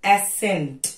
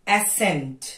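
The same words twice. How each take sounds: No difference in how they are said.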